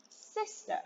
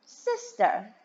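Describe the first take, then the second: First: Soft whispered Sister, high and breathy. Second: Said in the usual way. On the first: Shown as a demonstration. Teacher whispers Sister to the children. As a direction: whisper the word Sister like a secret. Teacher models word for kids.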